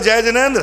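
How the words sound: The greeting sounds arrogant and bossy. The speaker feels superior to the listener. The speaker calls it wrong. "अहंकार मत कर"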